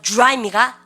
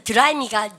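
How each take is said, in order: First: "드라이입니까" opening as "joo-rai", hit harder; English DR sound. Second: "드라이입니까" with a plain "deu" syllable; Koreanized DR. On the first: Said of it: "디알은 뭐야". ("드라이입니까"를 '주라이'처럼 발음) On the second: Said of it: "D하고 R 발음이 있으면". ("드라이입니까"를 한국식 '드'로) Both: Shown as a demonstration.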